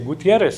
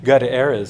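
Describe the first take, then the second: First: The name is said with Spanish sounds. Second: The name is said with English sounds. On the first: "we say" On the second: "We don't say"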